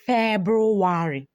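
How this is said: It is said with an Igbo accent, every sound voiced. "We say February. ... we say everything as it is"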